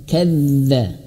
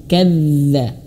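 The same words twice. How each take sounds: Both takes have the same delivery.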